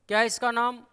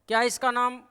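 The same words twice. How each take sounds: Both takes have the same delivery.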